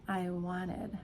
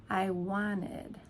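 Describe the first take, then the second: The two takes are said the same way.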